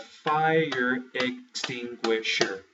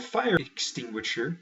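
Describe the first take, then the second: First: Broken into beats. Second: Said in the usual way. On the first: Shown as a demonstration. Teacher counting out the beats of a word, slow syllable-by-syllable demo. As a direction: FIRE EXTINGUISHER drawn out slow, syllable by syllable. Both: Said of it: "It is only one beat".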